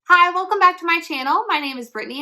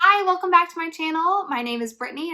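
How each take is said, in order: First: It is said with lively, high energy. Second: It is said with low, deflated energy.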